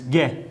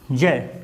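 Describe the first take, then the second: First: The syllable begins with a hard g sound. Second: The syllable begins with a j sound. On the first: The speaker calls it wrong. "इसका हम उच्चारण ऐसे कर लेते हैं भ्रांतिवश" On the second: The speaker calls it right. "होता क्या है इसका उच्चारण?"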